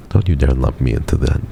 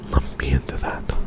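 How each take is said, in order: First: Said in the usual way. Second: Hushed mock-threatening whisper. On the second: Shown as a demonstration. Streamer whispers a playful warning to a chatter. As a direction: breathe the warning with no voice. Repeats the line, then whispers it.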